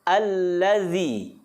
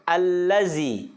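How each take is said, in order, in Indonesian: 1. Konsonan tengahnya adalah bunyi th bersuara. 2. Konsonan tengahnya adalah bunyi z yang bergetar. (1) "Yang betul adalah allazi. Ujung lidah sentuhkan ke dinding dua gigi seri kita yang atas" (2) "bukan allazi"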